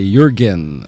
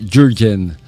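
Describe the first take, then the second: First: The name begins with a Y sound. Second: The name begins with a J sound. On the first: The speaker calls it right. "ang tawag ng pangalan niya ay Jurgen" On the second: The speaker calls it wrong. "at hindi Jurgen"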